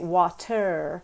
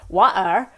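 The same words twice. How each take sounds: First: The T is pronounced fully and clearly. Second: The T sound is left out entirely. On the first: "because that actually takes a lot longer" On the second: "where you don't have the T"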